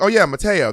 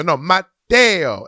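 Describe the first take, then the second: First: Higher, breezy "Mateo" as muh-TAY-o; casual mispronunciation. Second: "Mateo" very slow and louder, mah-TEH-o; insistent correction. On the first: Thinking you've got the name right, casually anglicised Mateo. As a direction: agree brightly, "Mateo" anglicised and quick. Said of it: "And you're like". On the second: Correcting the same person once more, slow loud insistent Mateo. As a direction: hammer out "Mateo", stretching each syllable. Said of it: "They go". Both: Acted.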